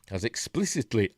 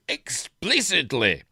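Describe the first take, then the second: First: Said in the usual way. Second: Explicitly slow, loud and higher; stress on explicitly. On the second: Shown as a demonstration. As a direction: punch explicitly slowly and hard. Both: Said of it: "he emphasises".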